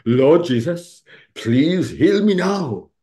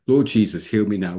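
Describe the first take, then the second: First: Put-on loud, slow, singsong Welsh accent rising high; fond Welsh-accent impression, drawn out. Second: Said in the usual way. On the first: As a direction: imitate a Welsh woman praying, stretching the plea out. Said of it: "a lovely Welsh accent". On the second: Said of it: "pray this prayer".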